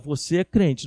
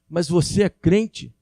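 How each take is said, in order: First: It sounds warm and approving, like a confirmation. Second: It sounds doubtful and surprised, like a challenge. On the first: The asker recognizes and approves it. "fala diferente para a gente assim" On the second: The asker doubts it could be true. "Quando a pessoa faz uma pergunta nesse tom, chega a dar uma dor no coração"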